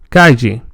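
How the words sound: The double L sounds like ly. Some older speakers in Spain say it this way. "formerly pronounced as l"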